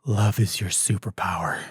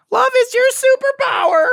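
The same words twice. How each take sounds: First: Said in the usual way. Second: Very high, loud cartoon squeak; squeaky cartoon character impression; cartoon alien voice. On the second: Podcaster mocking an alien's annoying voice, very high cartoon squeak. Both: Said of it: "sounds like a fucking Cartoon Network character".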